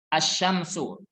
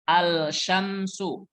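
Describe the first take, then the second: First: The 'l' is silent, going straight into 'sh'. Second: The 'l' is clearly pronounced before 'sh'. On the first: The speaker calls it right. "Langsung masuk ke huruf shin" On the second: The speaker calls it wrong. "Bukan. Ini salah"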